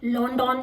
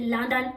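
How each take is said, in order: First: The first vowel sounds like 'oh'. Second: The first vowel sounds like 'uh'. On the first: The speaker calls it wrong. "you wouldn't say London" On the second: The speaker calls it right. "you would say London"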